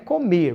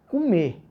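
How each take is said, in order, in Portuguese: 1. A palavra é falada por inteiro, como está escrita. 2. A palavra é falada de forma reduzida e informal. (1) "não é comer" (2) "o brasileiro fala comer"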